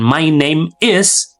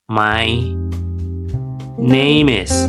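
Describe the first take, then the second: First: The words are said separately with breaks. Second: The words are linked smoothly without breaks. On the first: The speaker calls it wrong. "bukan my name is" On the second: The speaker calls it right. "tetapi my name is"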